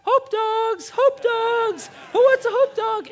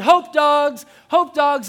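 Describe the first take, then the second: First: Put-on very high, loud little-girl yell; imitating six-year-old daughter. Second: Loud, high street-vendor call; yelling. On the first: Six-year-old copying dad at the parade, squeaky yelling. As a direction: squeal it out like a tiny hot dog vendor. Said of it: "this is what she does. She goes". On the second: Retold or imitated. Dad handing out hot dogs at a parade, yelling. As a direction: holler it out with gusto. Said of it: "I'm yelling".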